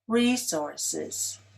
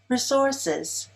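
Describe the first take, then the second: First: The stress is on the first syllable. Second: The stress is on the second syllable. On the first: "Resources is stressed on the first syllable, as I just said it" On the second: "with a stress on the second"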